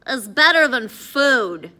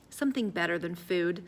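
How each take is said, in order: First: Loud, slow, disbelieving question; incredulous. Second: Said in the usual way. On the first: A narrator's reading. Hungry Eddie asking Addison what beats food, incredulous. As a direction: lean hard on each word, baffled and loud.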